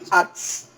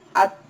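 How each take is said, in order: First: The final t is released immediately with hiss. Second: A short stop comes before the final release. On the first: The speaker calls it wrong. "Bukan langsung disambar. Ats. Ya, tidak tepat" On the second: The speaker calls it right. "dia ada jeda sebentar. At. Baru masukkan bunyi desisnya"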